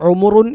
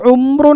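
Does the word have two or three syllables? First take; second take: three; two. First: A vowel separates the m and r sounds. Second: The m and r sounds run together. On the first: The speaker calls it right. "ഉ മു റുൻ ഇതാണ് പ്രായം" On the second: The speaker calls it wrong. "അവിടെ ഉംറുൻ എന്ന് പറയരുത്"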